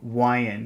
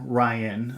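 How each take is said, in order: First: The name begins with a W sound. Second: The name begins with a normal R sound.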